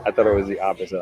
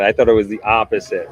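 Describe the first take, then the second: First: Said in the usual way. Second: Surprised realization. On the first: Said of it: "I read this wrong". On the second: Real, not acted.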